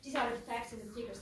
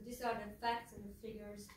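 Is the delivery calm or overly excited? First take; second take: excited; calm. First: It is said with a lot of excited energy. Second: It is said in a calm, straightforward way. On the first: "This is too much excitement" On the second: "this is straight forward"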